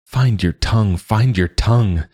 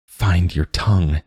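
First: Higher and more urgent with each repeat; pleading with himself, rising desperation; begging himself. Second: Said in the usual way. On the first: A narrator's reading. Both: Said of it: "Joa begged himself".

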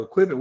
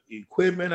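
First: "Equipment?" thrown back higher, as a query; puzzled echo. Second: Said in the usual way. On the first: Retold or imitated. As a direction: question the word "Equipment", mock puzzled. Puzzled echo of sponsor's word.

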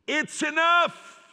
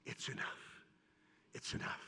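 First: A father's cry, it's enough; loud slow cry of resolve. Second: Breathy whisper, very soft; preacher whispering Jacob's words to the crowd; whispered resolve. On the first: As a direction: stretch it out, loud and high. Jacob deciding to go. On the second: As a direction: whisper it like a quiet surrender. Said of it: "do like Jacob saying". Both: Acted.

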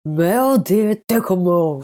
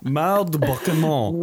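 First: Clumsy French attempt. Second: Mal de débarquement said the French way, uvular r; French pronunciation. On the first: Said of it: "You gotta work on your accent a bit". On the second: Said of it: "Please, I'm really good". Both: Shown as a demonstration.

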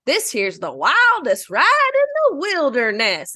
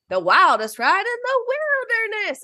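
First: Falls at the end; higher, slow quote with a dropping finish; intonation goes down. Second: Higher quote lifting at the end; rising Disney World version; intonation goes up. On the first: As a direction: let the line sink on wilderness. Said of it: "Disneyland says". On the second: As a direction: let the line climb on wilderness. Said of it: "the one at Disney World says". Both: Retold or imitated.

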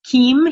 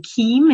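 First: Put-on Keem with a French accent, long ee. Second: Said in the usual way. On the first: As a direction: say Keem the French way, stressed and rising. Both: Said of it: "he called me Keem in his French accent".

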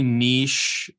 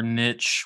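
First: "niche" said like "neesh"; French-style pronunciation. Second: "niche" said like "nitch"; anglicized pronunciation. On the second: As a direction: say "niche" to rhyme with "rich". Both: Shown as a demonstration. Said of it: "whichever you prefer".

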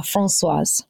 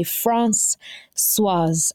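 First: "Françoise" joined up as one word; name put together. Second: "Françoise" split into France, pause, "swaz"; name broken in two. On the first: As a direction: say "Françoise" smoothly with no break, lower in pitch. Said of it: "and put that together". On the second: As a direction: say "Françoise" slowly, syllable by syllable. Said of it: "best way to pronounce my name". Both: Shown as a demonstration.

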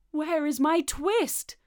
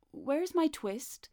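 First: Loud, high, slow demand; insistent demand. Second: Higher, slow, measured question; questioning the cat. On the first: Tailor pressing Simpkin for his twist, loud insistent demand. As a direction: draw it out loudly, rising at the end. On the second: Tailor asking Simpkin for his twist, slow questioning. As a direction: ask slowly and pointedly, without shouting. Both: A narrator's reading.

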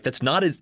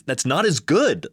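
First: Said in the usual way. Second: Louder and slower on not as good; indignant insistence. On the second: Retold or imitated. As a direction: lean on good as if offended. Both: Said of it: "And you're like".

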